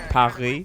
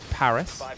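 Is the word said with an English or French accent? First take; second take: French; English. First: It is said with a French accent. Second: It is said with an English accent.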